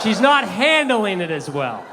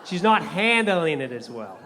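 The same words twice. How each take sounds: First: Not hit hard and slow, louder; stress on not. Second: Not stressed, slow and calmer. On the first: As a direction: lean on not, slow and emphatic. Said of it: "Let me rephrase it". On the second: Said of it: "That's how I meant to say it". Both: Shown as a demonstration.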